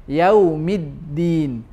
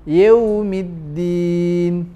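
No difference in how they are said.

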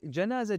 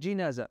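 First: The first syllable has an 'a' vowel. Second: The first syllable has an 'i' vowel. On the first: It refers to the dead body. "بالفتح تطلق على الميت جنازة" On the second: It refers to the bier carrying a body. "وبالكسر جنازة على النعش إذا كان عليه ميت"

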